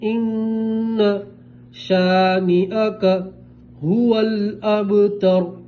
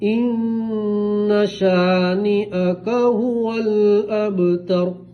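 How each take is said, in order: First: Each word is said separately with breaks between. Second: The words are joined smoothly without breaks. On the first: "लब लफ्ज" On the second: "अब मिलाएंगे"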